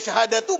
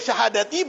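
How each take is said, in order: First: The word ends with a u vowel. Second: The word ends with an i vowel. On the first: The word is in the nominative case. "jadi mubtada lagi" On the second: The word is in the genitive case. "karena ataf kepada khamsin"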